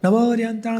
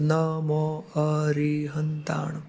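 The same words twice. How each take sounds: First: It is rattled off quickly and mechanically. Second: It is said slowly, word by word.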